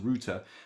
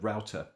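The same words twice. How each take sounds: First: It is said the British way, like rooter. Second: It is said the American way, like rowter.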